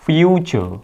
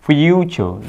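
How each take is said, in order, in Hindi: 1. बीच का व्यंजन 'ch' ध्वनि है। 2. बीच का व्यंजन 'ch' ध्वनि है।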